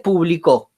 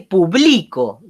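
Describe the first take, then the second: First: The stress is on the last syllable. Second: The stress is on the middle syllable. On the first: "Y tiene como vocal tónica la O" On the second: "Tiene como vocal tónica la I"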